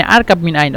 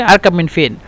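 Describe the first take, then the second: First: আরকাব মিন আইন with standard আইন; standard Arabic. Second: আরকাব মিন ফিন with dialect ফিন; Egyptian dialect. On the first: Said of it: "এটা হলো শুদ্ধ ভাষা". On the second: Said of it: "এটা হলো আঞ্চলিক ভাষা". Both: Shown as a demonstration.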